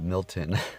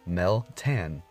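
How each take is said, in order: First: The first syllable sounds like 'mil'. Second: The first syllable sounds like 'mel'. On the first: The speaker calls it wrong. "I was calling it Milton" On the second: The speaker calls it right. "let's say it right"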